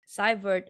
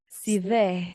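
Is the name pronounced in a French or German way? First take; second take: German; French. First: The name is said with German sounds. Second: The name is said with French sounds. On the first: "is the German pronunciation" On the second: "is the French pronunciation"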